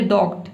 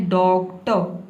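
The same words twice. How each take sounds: First: डॉक्ट cut off hard on the t with no vowel after it; the mistaken डॉक्ट with the final vowel dropped; wrong clipped ending. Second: डॉक्टर ending in a light uh sound; correct doctor. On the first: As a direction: say डॉक्ट ending sharply on t, the way not to say it. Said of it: "आप ये ना बोले डॉक्ट". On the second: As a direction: say डॉक्टर as dok-tə, with no rolled r at the end. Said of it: "आपको बोलना है डॉक्टर". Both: Shown as a demonstration.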